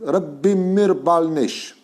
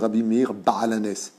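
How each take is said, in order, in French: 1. Le nom se termine par un son sh. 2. Le nom se termine par un s simple.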